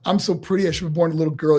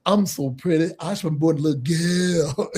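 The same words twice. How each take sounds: First: Said in the usual way. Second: Preen it like a flamboyant star; Dusty's version. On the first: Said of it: "rehearse that". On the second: Retold or imitated. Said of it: "do it like this".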